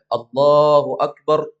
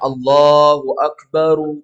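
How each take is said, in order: First: The final word ends on a stopped r sound. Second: The final word ends with a short u vowel. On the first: "kalau dia matikan juga boleh" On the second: "orang mengucapkannya Allahu akbaru"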